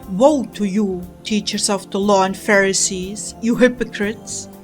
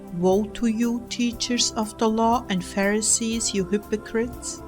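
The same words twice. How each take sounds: First: It is said in a harsh, angry tone. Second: It is said in a soft, gentle tone. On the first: The speaker calls it right. "you sound angry" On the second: The speaker calls it wrong. "Do you think I said this gently?"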